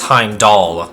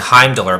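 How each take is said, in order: First: The last syllable sounds like 'doll'. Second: The last syllable does not sound like 'doll'. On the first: The speaker calls it right. "but it's Heimdall, like doll" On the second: The speaker calls it wrong. "I kept on saying Heimdall"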